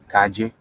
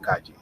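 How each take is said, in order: First: CALLE with its LL as a soft English J; soft J sound. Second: CALLE with its LL as a soft Y; soft Y sound. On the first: Teacher showing a dialect variant, CALLE with a soft J. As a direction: say CALLE like "ka-jay". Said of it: "like, a soft J sound". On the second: Teacher showing the rule, CALLE with a soft Y. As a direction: say CALLE like "ka-yay". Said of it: "with a soft Y sound". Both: Shown as a demonstration.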